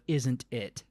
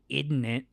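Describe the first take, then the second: First: The words are said fully with every sound. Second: The words are clipped and run together. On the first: "instead of isn't it" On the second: "You don't say words all the way. Like you say isn't it"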